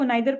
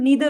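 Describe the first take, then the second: First: The first vowel sounds like 'eye'. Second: The first vowel sounds like 'ee'. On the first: The speaker calls it wrong. "मैं भी इसको नाइदर पढ़ रही हूँ" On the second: The speaker calls it right. "जो इसकी correct pronunciation है वो नीदर है"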